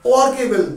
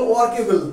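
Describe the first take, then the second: Both takes have the same delivery.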